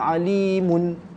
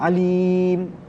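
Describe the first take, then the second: First: The final vowel is sounded, ending on mun. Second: The final vowel and nun are dropped, ending on m. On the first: The reading seems to carry on to the next word. "Kalau kita nak waqaf tapi masih lagi bunyi baris dia ... tu mun tu bukan mahad" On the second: The reading stops fully at the word. "kalau kita matikan bunyi dia macam mana? ... tu mahad"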